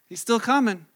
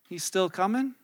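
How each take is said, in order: First: It is said in a confident, assured tone. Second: It is said in a doubtful, questioning tone. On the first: The arrival is still firmly expected. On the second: Hope of the arrival is fading.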